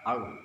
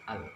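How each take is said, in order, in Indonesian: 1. L-nya tebal, dari tengah lidah. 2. L-nya tipis, ujung lidah ke depan. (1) "Kalau di tengah lidah al. Nah, tebal dia"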